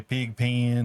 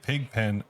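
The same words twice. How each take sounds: First: "pen" said like "peen", vowel stretched; pin-pen merger. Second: Said in the usual way. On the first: Shown as a demonstration. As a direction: draw "pen" out into a Southern "pee-in". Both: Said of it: "there's a high chance I'll say".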